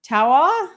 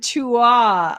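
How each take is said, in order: First: The name sounds like 'Tawa'. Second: The name sounds like 'Chua'. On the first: The speaker calls it right. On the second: The speaker calls it wrong.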